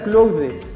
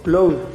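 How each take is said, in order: First: The word is said slowly and carefully. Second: The word is said quickly.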